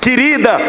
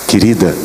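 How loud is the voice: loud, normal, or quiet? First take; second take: loud; normal. First: The question is said in a loud voice. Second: The question is said at normal loudness. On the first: He is testing whether she hears a raised voice. "aumente o tom de voz até ver em que tom ela responde" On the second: He is testing whether she hears a normal voice. "repita a pergunta num tom normal"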